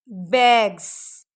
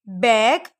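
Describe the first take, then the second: First: बैग्स stretched slowly, buzzing z end. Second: Said in the usual way. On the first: Shown as a demonstration. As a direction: drag out बैग्स and buzz the z. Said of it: "एंड पे ज का sound". (बैग्स धीरे, अंत में ज़) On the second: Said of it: "sound को देखें".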